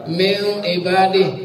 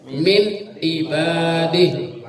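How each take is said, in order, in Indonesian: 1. Bunyi n kabur dan katanya diucapkan terburu-buru. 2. Bunyi n diucapkan dengan jelas tanpa ditahan. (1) "seolah-olah apa namanya ifa nggak jelas tapi dibaca cepat" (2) "Kan E-nya jelas. ... Jadi nggak pakai ditahan"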